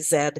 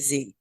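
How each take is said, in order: First: The letter is said the Canadian way, zed. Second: The letter is said the American way, zee.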